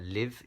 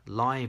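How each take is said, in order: First: The vowel is a short i sound. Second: The vowel is not a short i sound. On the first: It is the verb. "live is the verb" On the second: It is the adjective. "which is the adjective"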